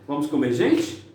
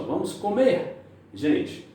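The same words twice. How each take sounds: First: There is no pause before "gente". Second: There is a pause before "gente".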